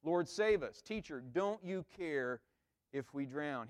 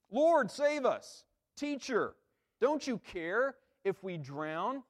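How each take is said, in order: First: Said in the usual way. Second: "Lord" cried high and slow, frantic; panicked plea. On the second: Shown as a demonstration. Disciples crying out to Jesus, panicked. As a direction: beg Jesus to save them from drowning. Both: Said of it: "when we see them like this".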